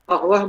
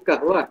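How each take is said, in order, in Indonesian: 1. Kata itu dimulai dengan bunyi q yang dalam. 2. Kata itu dimulai dengan bunyi g yang keras.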